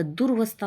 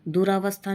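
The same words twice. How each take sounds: First: दुर्वस्था with r joined straight to v; no aa after r in दुर्वस्था; correct pronunciation. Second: दुरावस्था with long aa after r; wrong pronunciation. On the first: Teacher correcting the word, दुर्वस्था as dur-vastha. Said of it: "होता है". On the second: Teacher showing the error, दुरावस्था as du-raa-vastha. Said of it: "नहीं होता". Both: Shown as a demonstration.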